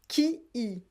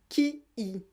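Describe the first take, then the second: No difference in how they are said.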